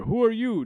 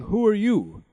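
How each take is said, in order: First: Sharp high demand; king demanding. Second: High, louder king's question; king asking again. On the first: King demanding the stranger name herself, much higher. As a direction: snap the question out at the stranger. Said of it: "demanded the king". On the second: King asking the old fairy who she is, higher and louder. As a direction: press the stranger for her name. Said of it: "said the king". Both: A narrator's reading.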